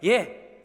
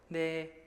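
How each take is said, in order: First: It is said in a bold, confident voice. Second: It is said in a faint, shrinking voice. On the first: He proudly admits writing the books. "당당하게" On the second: He admits it fearfully. "기어 들어가는 목소리로"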